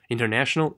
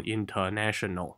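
First: "International" with a reduced "ter"; neat, rising "International"; compact pronunciation. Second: "international" with a full, open "ter"; spread-out "international", every vowel full; too-open syllables. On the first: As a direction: keep "International" tight, middle vowel small. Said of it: "注意记得不要发得太开". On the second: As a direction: say "international" as in-tuh-na, over-opened. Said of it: "不要读成". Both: Shown as a demonstration.

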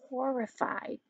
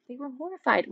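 First: Horrified dropped almost to a hush. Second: Horrified raised and said out firmly; stress on horrified. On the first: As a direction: breathe horrified out softly. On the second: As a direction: lean on horrified to make it land. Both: Shown as a demonstration.

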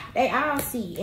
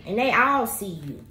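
First: "they" leaned on, falling; stress on they. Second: "all" leaned on, falling; stress on all. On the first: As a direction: hit "they" on the repeat. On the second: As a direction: land the weight on "all". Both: Real, not acted.

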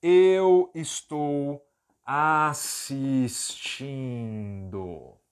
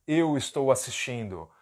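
First: Eu estou assistindo dragged out very slowly. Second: Said in the usual way. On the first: Shown as a demonstration. Teacher giving the translation slowly and clearly. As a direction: stretch every syllable of eu estou assistindo. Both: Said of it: "Foi a palavra que nós aprendemos".

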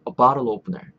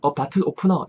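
First: "a bottle opener" with flapped t, linked to opener; "a bottle opener" as a-barul-opener, stress on the nouns; American pronunciation. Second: "a bottle opener" as Korean 어 바틀 오프너; "a bottle opener" in separate Korean syllables; Koreanized pronunciation. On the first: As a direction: say "a bottle opener" smoothly, tense p and final r. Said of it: "이렇게 요 정도 뉘앙스로". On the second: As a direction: say "a bottle opener" with hard t and puffed p. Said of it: "이렇게 해도 알아들을 수 있겠지만". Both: Shown as a demonstration.

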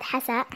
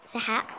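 First: حساء said properly, h then s; corrected word. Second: سحاء said with s and h swapped; a slip: سحاء instead of حساء; tongue slip on سحاء; wrong word. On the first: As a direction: fix the slip: حساء with h first. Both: Shown as a demonstration. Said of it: "أقصد حساء".

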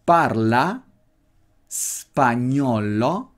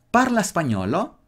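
First: Spagnolo stretched out very slowly; slow drill for learners; very slow demo. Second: Parla hit higher and rising; Italian question tune; stress on parla. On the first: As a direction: drill parla spagnolo, spagnolo dragged out. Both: Shown as a demonstration. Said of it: "Otra vez".

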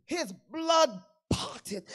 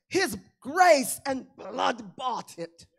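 First: Slow preacher's shout; shouted refrain. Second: Louder and slow, each word weighed; slow preached proclamation. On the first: Pastor repeats the refrain to the church, shouting. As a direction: hammer the refrain out louder. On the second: Pastor proclaims grace to the church, slow and loud. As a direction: lay down grace and blood deliberately. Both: Acted.

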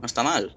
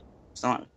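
First: Said in the usual way. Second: Repetido mucho más flojo, casi para sí; repítelo en voz baja; más bajito. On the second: Real, not acted. (repetido en voz baja)

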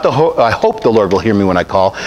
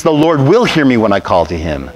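First: Unsure, hesitant prayer, lower and trailing; doubtful hoping. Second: Said in the usual way. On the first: Shown as a demonstration. Preacher mocking a doubtful prayer, hesitant and unsure. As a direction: pray it as if you only half believe it. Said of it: "or not".

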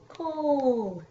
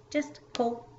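First: COAL drawn out long, higher and louder, gliding down; mock kid's overlong, loud COAL; stretched into syllables. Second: Said in the usual way. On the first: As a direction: imitate a child stretching "Coal" as if it had extra syllables. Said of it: "And they'll be like". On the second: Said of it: "Nope, just coal".

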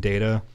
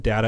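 First: "data" with a long A, DAY-tuh; long-A pronunciation. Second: "data" with a short A, DAT-uh; short-A pronunciation. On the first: Co-host recalls saying it two different ways, long-A pronunciation. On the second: Co-host recalls saying it two different ways, short-A pronunciation. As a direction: say "data" to rhyme with "matter". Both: Shown as a demonstration. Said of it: "the two different ways".

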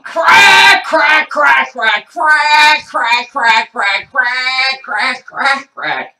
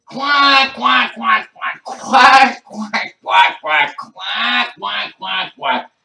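First: Very high, loud squawked "crack"; ducks quacking "crack". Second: Loud, high frantic duck quacks; duck quacking. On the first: Gold-chained ducks demanding crack, loud quack-like squawking. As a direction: squawk CRACK like a crazed duck. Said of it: "they're saying". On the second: Ducks after chewing the crack, loud wild quacking. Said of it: "you hear 'em say". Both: Retold or imitated.

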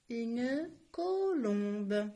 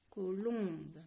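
First: Une colombe stretched very slowly, each syllable apart. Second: Said in the usual way. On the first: Shown as a demonstration. Teacher to pupils, spelling out Une colombe slowly. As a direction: sound out colombe slowly for the class. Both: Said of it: "teacher demonstrates syllables".

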